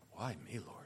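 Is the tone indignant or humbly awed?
humbly awed. It sounds humble, in grateful awe.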